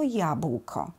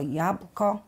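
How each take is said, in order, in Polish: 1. Środkowy zbitek wymawia się w całości jako bł. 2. Spółgłoska ł jest pomijana, zostaje tylko b. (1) "Jeśli przyjmujemy wymowę staranną, to jabłko" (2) "uproszczenie grup półgłoskowych, czyli nie jabłko, tylko jabłko"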